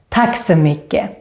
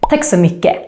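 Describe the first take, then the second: First: The phrase is said at a normal, careful speed. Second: The phrase is said very fast, dropping the T.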